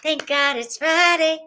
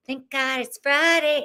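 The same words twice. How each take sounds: First: Sung, high singsong celebration; sung cheer. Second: Sung, singsong, falling at the end. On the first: Host celebrating Friday with the chat, sung out. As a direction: sing it out high and bright with relief. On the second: Sung, host celebrating Friday, relaxed singsong. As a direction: sing it easily, letting the tune settle. Repeats the line, easing down. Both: Real, not acted.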